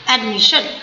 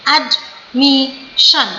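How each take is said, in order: First: Said in the usual way. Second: admission very slow, ad... mi... shan; slow syllables. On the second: Shown as a demonstration. Teacher demonstrating three syllables, admission split slowly. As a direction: cut admission into three beats with gaps. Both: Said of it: "slow slow करके बोलिए".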